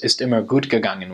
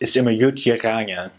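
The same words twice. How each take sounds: First: It is said in standard German with hard G sounds. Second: It is said in Kölsch with G sounds like Y.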